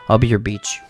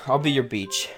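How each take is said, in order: First: It is said in a put-on poem voice. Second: It is said in his normal voice.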